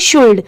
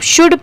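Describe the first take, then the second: First: The L sound is pronounced in the word. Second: The L sound is left out of the word. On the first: The speaker calls it wrong. "अगर हम इसे पढ़े तो यहाँ पर ये शुल्ड लिखा है" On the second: The speaker calls it right. "पढ़ते टाइम हम सिर्फ शुड पढ़ेंगे"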